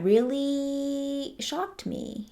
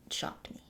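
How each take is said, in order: First: Much higher and very slow, stretched out; dramatic slow. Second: A breathy whispered echo. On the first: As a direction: drag every word out in mock awe. Dramatic emphasis on being shocked. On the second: Repeating her shock to viewers as a whispered aside. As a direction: drop to a hushed secret whisper. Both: Real, not acted.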